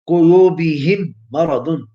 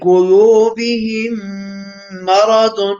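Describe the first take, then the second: First: The merged m is short without a nasal hum. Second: The merged m is held with a nasal hum. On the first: The speaker calls it wrong. "that would be wrong because I'm not nasalized the sound" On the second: The speaker calls it right. "Idgham with gunna, nasalization"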